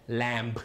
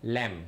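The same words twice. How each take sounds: First: Lamb with the final b sounded; "lamb" said with a b released at the end; wrong lamb. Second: Lamb with a silent b, lips just closing; "lamb" ending on a closed-lip m, no b; right lamb. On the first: Teacher shows pupils the wrong way, b voiced. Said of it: "mình không phát âm lamb". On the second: Teacher shows pupils the right way, silent b. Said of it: "mình cứ phát âm". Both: Shown as a demonstration.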